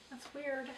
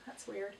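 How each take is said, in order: First: Higher, odd little voice on the repeat; playful higher take; higher quirky repeat. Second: Said in the usual way. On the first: Real, not acted. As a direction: toss it off in a funny higher voice. Repeats the phrase in another voice.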